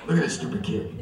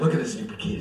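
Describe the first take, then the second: First: It is said in a very deep voice. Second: It is said in a normal voice.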